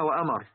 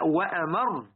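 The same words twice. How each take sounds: First: The r is short and not doubled. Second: The r is doubled and held longer. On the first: It means a command. The speaker calls it wrong. "هنا في نقطة بعض الناس لك إيه" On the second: It means more bitter. The speaker calls it right. "لابد أن نشدد الراء"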